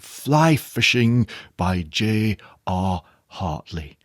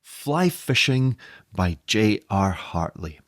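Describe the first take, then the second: First: It is said in a posh English accent. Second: It is said in a plain, everyday accent.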